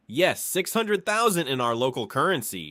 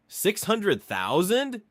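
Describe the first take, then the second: First: Said in the usual way. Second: Shocked echo. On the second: Acted. Friend shocked by huge dowry.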